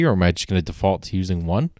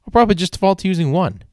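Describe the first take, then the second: First: Said in the usual way. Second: Much higher and fast, a quick resigned quip; mock self-answer. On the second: Shown as a demonstration. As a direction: toss the answer off high and quick. Answers his own question, mocking.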